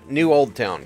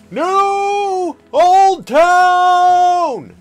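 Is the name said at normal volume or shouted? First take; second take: normal; shouted. First: It is said at a normal speaking volume. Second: It is shouted loudly with high energy.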